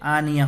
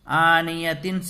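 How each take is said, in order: First: The word ends on an open vowel. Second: The word ends with a full -tin sound. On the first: The reader stops to take a breath here. "आनिया हो जाएगा" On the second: The reading continues without a stop. "आनियतिन से"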